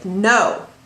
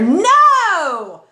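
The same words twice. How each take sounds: First: It is said firmly with more force. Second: It is said very loudly, almost shouted. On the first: "create a little bit more impact" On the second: "you could go even crazier"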